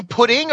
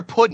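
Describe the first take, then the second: First: Said in the usual way. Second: "pudding" said as puddin'; casual pronunciation. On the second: Shown as a demonstration. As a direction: drop the final g in "pudding". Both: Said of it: "Did I say pudding or pudding?".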